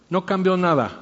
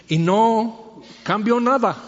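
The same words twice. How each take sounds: First: Said in the usual way. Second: "nada" drawn out slow and high, falling at the end; slow emphatic stress. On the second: Real, not acted. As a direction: stretch "Y no cambió nada" slowly, lifting "nada" high then letting it fall. ("nada" lento, alto y enfático, cayendo al final)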